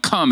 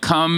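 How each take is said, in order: First: It is said in a stern mommy voice. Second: It is said in a plain, ordinary voice.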